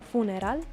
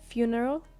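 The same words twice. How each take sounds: First: The word is pronounced with Spanish sounds. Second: The word is pronounced with English sounds. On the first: "in Spanish is funeral" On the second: "In English is funeral"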